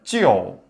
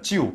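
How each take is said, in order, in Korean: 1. 모음은 'eo' 활음을 넣어 뒤로 당기는 소리예요. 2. 모음은 그냥 앞에서 나는 'iu' 소리예요. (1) "속으로 집어넣으면" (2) "저도 찌우인 줄 알았어요"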